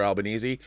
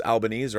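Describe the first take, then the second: First: Albanese said al-ba-NEE-zee; Albanese ending in -eezee. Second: Albanese said al-ba-NEEZ; Albanese ending in -eez. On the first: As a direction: sound the final E of Albanese as "ee". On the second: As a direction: say Albanese with a silent final E. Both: Shown as a demonstration. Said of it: "don't even know how to pronounce it".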